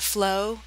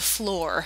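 First: The word ends without an R sound. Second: The word ends with a clear R sound. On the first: The speaker calls it wrong. "especially if you have a southern accent, you might be tempted to say" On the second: The speaker calls it right. "We want to hit those end R there"

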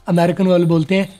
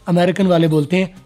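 The two takes are said the same way.

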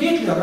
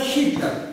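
First: The name begins with a hard G sound. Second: The name begins with a breathy H sound. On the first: This is how Russians say the name. "Мы говорим Гитлер" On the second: This is how Americans say the name. "американцы говорят Хитлер"

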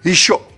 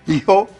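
First: The consonant is a full French sh. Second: The consonant is a light h.

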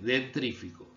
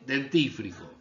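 First: The r sound comes right after the t. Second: The r sound comes right after the f. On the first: The speaker calls it wrong. "¿cómo dice mucha gente?" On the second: The speaker calls it right. "Se dice dentífrico"

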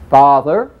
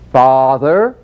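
First: It is said rapidly with less stretch. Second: It is said a little faster, still stretched.

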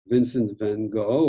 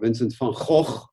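First: The name is said with English sounds. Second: The name is said with Dutch sounds. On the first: The speaker calls it wrong. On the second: The speaker calls it right.

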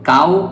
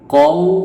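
First: The vowel is long and open. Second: The vowel is short and closed. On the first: The speaker calls it wrong. "কাও পড়া যাবে না" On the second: The speaker calls it right. "কও পড়তে হবে"

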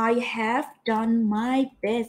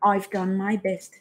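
First: "I have" is said as two full words. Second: "I have" is shortened into one syllable. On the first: "เอาแบบเต็มเวอร์ชันก็คือ" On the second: "เอาย่อหน่อย"

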